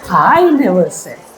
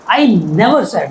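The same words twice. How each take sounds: First: The word 'I' carries the strongest stress. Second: The word 'never' carries the strongest stress. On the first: Someone else said it. "Somebody else might have said, but I never said" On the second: It was never said at all. "Who told you?"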